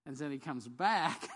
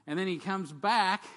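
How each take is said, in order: First: Slow "comes back" with a catch of crying; tearful retake. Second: Much louder, slow, proclaiming "comes back"; big triumphant return. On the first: Preacher retelling Christ's return after the congregation laughs, tearful. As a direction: say it moved, almost in tears. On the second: Preacher proclaiming Christ's return to the congregation, loud and slow. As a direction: announce his return like a herald. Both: Shown as a demonstration. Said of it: "some of you think that was funny".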